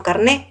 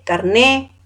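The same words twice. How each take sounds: First: Carné repeated with the t dropped, stress on é. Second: Carné said car-NÉ, final t dropped. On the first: Teacher confirming the right form carné. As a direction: say carné ending open on é. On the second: Teacher showing the Spanish way to say carné. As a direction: say carné ending open on é, no t. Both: Shown as a demonstration. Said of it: "no carnet, sino carné".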